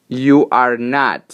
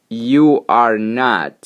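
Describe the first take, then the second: The two takes are said the same way.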